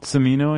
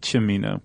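First: The name is said with an English pronunciation. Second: The name is said with an Italian pronunciation. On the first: "Cimino, I think" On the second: "If you're speaking in the Italian, it'd be Cimino"

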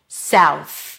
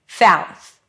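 First: The word starts with an S sound. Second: The word starts with a TH sound. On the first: The speaker calls it right. "The only similar thing we have here is the S at the beginning" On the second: The speaker calls it wrong. "they may pronounce a TH instead of an S"

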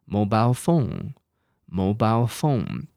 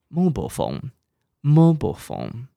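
First: It is said in a British accent. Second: It is said in an American accent. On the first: "那我们要不要来印一下" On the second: "这个是美式英文哦"

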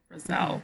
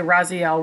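First: The name sounds like Roselle. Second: The name sounds like Raziel. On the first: The speaker calls it right. "It's like Roselle" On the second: The speaker calls it wrong. "I want to say Raziel, which is kind of how it's spelled"

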